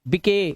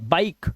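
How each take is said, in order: First: The final e is voiced as an extra vowel. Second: The word ends on the k with no vowel. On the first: The speaker calls it wrong. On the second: The speaker calls it right.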